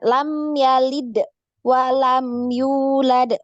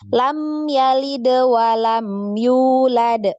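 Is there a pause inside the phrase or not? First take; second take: pause; no pause. First: It is said with a pause inside. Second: It is said in one flowing stretch.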